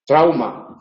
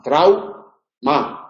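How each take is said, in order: First: Said in the usual way. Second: Trau-ma spoken with a break between trau and ma; split into syllables. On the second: Shown as a demonstration. Teacher splitting trau-ma into syllables for students. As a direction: break trau-ma into two beats.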